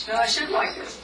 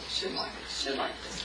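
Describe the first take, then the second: First: Said in the usual way. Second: Whispered self-scolding fading away. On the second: Retold or imitated. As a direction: trail off into a whisper, softer and softer. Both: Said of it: "And then you think".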